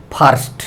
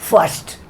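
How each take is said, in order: First: "फर्स्ट" with a long open "aa" and a full r; wrong pronunciation. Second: "फर्स्ट" with a short central vowel, r nearly silent; correct pronunciation. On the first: Teacher showing learners what to avoid, wrong "फर्स्ट" as "phaarst". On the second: Teacher modelling English for learners, correct "फर्स्ट" as "fuhst". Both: Shown as a demonstration. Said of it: "ऐसे नहीं बोलना है".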